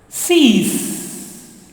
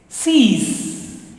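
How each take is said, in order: No difference in how they are said.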